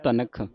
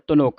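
First: The middle vowel sounds like a. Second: The middle vowel sounds like u. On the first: The speaker calls it right. "ਧਨਖ ਲੈ" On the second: The speaker calls it wrong. "ਧਨੁਖ ਨਹੀਂ ਕਹਿ ਦੇਣਾ"

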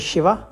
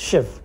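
First: Southern Indian form, with the final vowel kept. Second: Northern Indian form, with the final vowel dropped.

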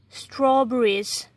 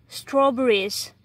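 No difference in how they are said.

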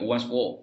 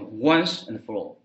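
First: The word 'and' is left out entirely. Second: The word 'and' is said strongly. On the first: "and 可以省略once for all 更多" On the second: "除非有的时候你强调once and for all"

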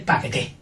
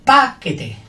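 First: The stress is on the last syllable. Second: The stress is on the first syllable. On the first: "Y con la última fuerte" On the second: "Con la primera fuerte"

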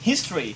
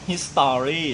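First: The word is said with only two syllables. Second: The word is said with three full syllables. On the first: The speaker calls it right. "มันเป็น2 พยางค์" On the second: The speaker calls it wrong. "ตอนแรกคุณพี่ฟลุ๊กออกเสียงว่า"

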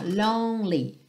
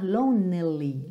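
First: It is said with two syllables. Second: It is said with three syllables. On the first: The speaker calls it right. "Esse E do meio não é pronunciado" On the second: The speaker calls it wrong. "cuidado para você não falar lonely"

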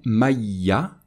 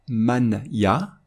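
First: The n disappears with no nasal sound. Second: The n is pronounced fully before the ya. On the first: "on ne va pas prononcer" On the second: "on ne va pas prononcer"

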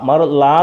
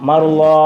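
First: The final vowel is a plain open a. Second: The final vowel is full and rounded. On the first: The speaker calls it wrong. "മറു ലാ എന്നല്ല, വെറും ലാ എന്ന് വായിക്കരുത്" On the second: The speaker calls it right. "നാക്ക് സൈഡിലേക്ക് ചേർത്ത് മറുലോ"

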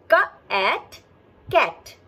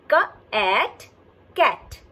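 No difference in how they are said.

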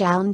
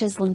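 First: It has a silent s and an 'eye' vowel. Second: The s is sounded in the middle. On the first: The speaker calls it right. "island will not be read slash island slash" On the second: The speaker calls it wrong. "most likely"

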